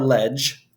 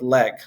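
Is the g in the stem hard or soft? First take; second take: soft; hard. First: The g is said soft, like j. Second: The g is said as a hard g. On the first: This is the ecclesiastical pronunciation. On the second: This is the classical pronunciation.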